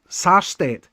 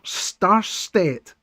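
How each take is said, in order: First: The name begins with the sound 'Sar'. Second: The name begins with the sound 'Star'. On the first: The speaker calls it right. "not Star, Sarstedt" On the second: The speaker calls it wrong. "I always get his name wrong"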